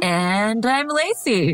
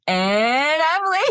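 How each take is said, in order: First: Slow announcer-style intro; game show host. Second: High, slow hammed-up host voice; game show host. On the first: Real, not acted. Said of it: "Why did I sound like ... a game show host". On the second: Shown as a demonstration. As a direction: ham up a game show intro. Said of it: "like a game show host".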